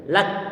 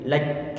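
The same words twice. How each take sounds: First: The final k stops with no air released. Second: The final k ends with a puff of air. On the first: "sebelum kita berikan hamasnya" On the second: "Kita alirkan angin-anginnya"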